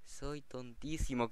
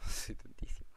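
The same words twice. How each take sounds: First: "tontísimo" drawn out slowly, falling; slow self-mockery. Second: Whispered "Soy tontísimo" through a laugh; laughing at himself. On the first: Repeats his blunder to viewers, slow and resigned. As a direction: stretch the word out, resigned. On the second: Realizes his crafting blunder, whispered laughing self-mockery. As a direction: breathe it out laughing at your own mistake. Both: Real, not acted. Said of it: "soy tonto yo".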